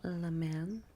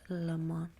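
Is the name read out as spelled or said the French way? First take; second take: as spelled; French way. First: The name is read out as it is spelled. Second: The name is said the French way. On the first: The speaker calls it wrong. "It's spelled Le Mans" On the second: The speaker calls it right. "you're supposed to pronounce it Le Mans"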